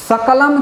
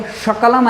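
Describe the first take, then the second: First: सकलम starting on a dental s; correct s sound. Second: शकलम starting on sh; sh in place of s opening शकलम; mistaken sh sound. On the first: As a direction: say सकलम as "sakalam", with s. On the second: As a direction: say शकलम as "shakalam". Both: Shown as a demonstration. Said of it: "की जगह शकलम ना आप बोल दें".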